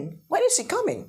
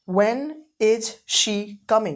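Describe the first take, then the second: First: Higher classroom model; higher repeat. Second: Very slow, drawn-out teacher model; slow classroom demonstration; slow model sentence. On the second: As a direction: stretch every word for the class. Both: Shown as a demonstration.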